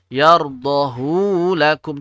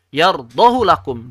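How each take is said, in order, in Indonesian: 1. Vokal hu dibaca panjang. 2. Vokal hu dibaca pendek. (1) "Tidak dibaca demikian" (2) "Tapi kenapa dibaca pendek?"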